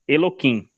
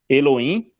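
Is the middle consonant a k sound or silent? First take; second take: k sound; silent. First: The middle consonant is a k sound. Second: The middle consonant is silent. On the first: "pelo som de que" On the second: "por um som neutro"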